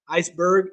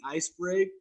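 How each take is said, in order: First: Said in the usual way. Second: "iceberg" garbled as "ice-brig"; stumble, saying "iceberg" like "ice-brig"; slip of the tongue. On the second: Real, not acted. Slips on word, then corrects it.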